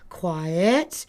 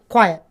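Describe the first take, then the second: First: It sounds light, uplifting and soft. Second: It sounds direct, serious and assertive. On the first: The command is not taken seriously. The speaker calls it wrong. "the tone of their voice is very uplifting and encouraging and wishy-washy sounding" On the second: The command is meant seriously. The speaker calls it right. "direct and assertive and more serious"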